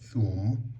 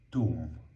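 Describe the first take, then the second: First: It begins with a soft th sound. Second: It begins with a plain t sound. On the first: This is the Standard Arabic form. "a word like thum" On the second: This is the spoken Sudanese Arabic form. "we actually say tum"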